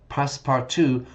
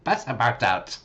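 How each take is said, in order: First: Passepartout as pass-par-too; his own way. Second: Passepartout as pass-uh-bout, mock robot version; imitating the AI. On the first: Shown as a demonstration. Teacher's own take before the AI one. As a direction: say Passepartout the way you chose. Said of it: "or as A I says". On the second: Teacher mocking the AI reading. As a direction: copy the AI's Passepartout, pass-uh-pout. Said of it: "maybe I should pronounce it like this".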